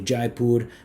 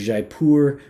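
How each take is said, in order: First: The name is said with a Hindi pronunciation. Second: The name is said with a French pronunciation. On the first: It follows the city's own language. "because of Hindi" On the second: It follows the fragrance house's language. "with a French pronunciation because of the house"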